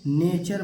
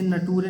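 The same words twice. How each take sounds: First: "नेचर" slowly, NAY-chur; correct "nature". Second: "नटूरे" sounded letter by letter, na-TOO-ray; misread "nature". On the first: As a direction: say "नेचर" with CH, silent final E. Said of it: "नेचर पढ़ेंगे". ("नेचर" धीरे से, च की आवाज़ के साथ) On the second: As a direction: say "नटूरे" with hard T and voiced final E. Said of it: "इसे नटूरे नहीं पढ़ेंगे". ("नटूरे": ट और आख़िरी ए के साथ ग़लत उच्चारण) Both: Shown as a demonstration.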